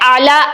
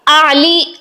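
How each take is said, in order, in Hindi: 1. शब्द का अंत 'ah' स्वर से होता है। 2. शब्द का अंत 'ee' स्वर से होता है। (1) "इस तरह से अदा किया जाता है" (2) "ऐसा पढ़ने के बजाय"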